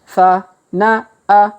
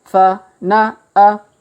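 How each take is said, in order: No difference in how they are said.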